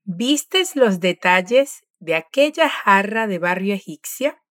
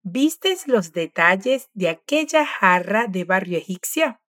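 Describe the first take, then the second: First: Slow, careful question, fading at the end; slow model question. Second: Slow, careful question with rising end; slow model question. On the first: Teacher repeating the question slowly. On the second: Teacher modelling a full question slowly. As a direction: read the question slowly for the learner. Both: Shown as a demonstration. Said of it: "Ahora vamos a repetir la pregunta completa".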